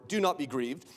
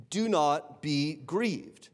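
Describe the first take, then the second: First: Said in the usual way. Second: Slow, deliberate "Do not be grieved" with stress on "Do"; slow pastoral emphasis; slow and weighty. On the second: Shown as a demonstration. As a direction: draw each word out gently. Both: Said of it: "repeated slowly for weight".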